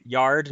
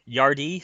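First: "Yard" said as one syllable, no final y sound; "Yard" rhymes with card, one syllable; Yard pronunciation. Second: "Yardy" said in two syllables, ending in ee; "Yardy" with a final ee sound; Yardy pronunciation. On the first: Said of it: "everyone on the planet seems to be pronouncing it Yard". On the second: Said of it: "not Yardy". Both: Shown as a demonstration.

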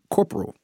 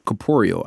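First: "corporal" cut to COR-pr-ul, stressed on the first syllable; habitual mispronunciation. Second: "corporeal" with four syllables, cor-POR-e-al; correct pronunciation. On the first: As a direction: say "corporal" like the army rank, without the "ee" sound. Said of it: "I would always say". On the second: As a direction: say "corporeal" with the middle syllable stressed and an extra "ee-uhl" ending. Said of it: "I would always say corporal". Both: Shown as a demonstration.

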